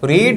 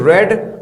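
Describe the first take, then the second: First: The vowel is a long ee sound. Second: The vowel is a short e sound. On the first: It is the base form of the verb. "इसको पढ़ते हैं रीड" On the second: It is the past form of the verb. "Second form को क्या पढ़ते हैं, रेड पढ़ते हैं"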